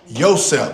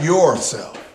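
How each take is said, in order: First: The first syllable is said as 'yo'. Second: The first syllable is said as 'your'. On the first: The speaker calls it right. "Y-O, by the way" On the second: The speaker calls it wrong. "not yourself"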